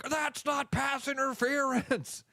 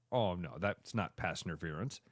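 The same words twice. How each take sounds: First: High, drawn-out outraged holler; mock fan protest. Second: Soft, low mock concession; sheepish backing down. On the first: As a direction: imitate a fan protesting the flag. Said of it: "then the exact opposite happens". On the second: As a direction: imitate a fan quietly admitting the mistake. Fan backs down after replay.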